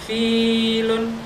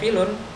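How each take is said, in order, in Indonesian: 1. Vokal pertama panjang. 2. Vokal pertama pendek. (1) "berarti ada ya di situ. Karena bacaannya panjang" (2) "berarti tidak ada ya di situ"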